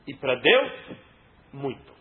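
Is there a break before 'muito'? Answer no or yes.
yes. A break separates 'muito' from the rest. Toward God they acted very pious.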